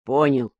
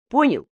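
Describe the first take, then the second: First: Понял said lower with a short falling close; a touch of sullen reluctance; glum. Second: Понял? thrown high as a pointed question; higher, testing whether he got it; asking check. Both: Acted. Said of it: "хмуро ответил Коника".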